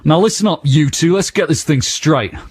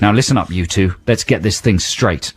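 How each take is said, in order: First: It is read in an aggressive voice. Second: It is read in a neutral voice.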